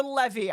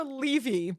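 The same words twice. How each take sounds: First: Levy with a short e, LEV-ee; short-e pronunciation. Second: Levy with a long ee, LEE-vee; long-e pronunciation. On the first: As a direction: say Levy to rhyme with "heavy". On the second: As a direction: say Levy with first syllable like "lee". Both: Shown as a demonstration. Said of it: "I don't know how it's pronounced".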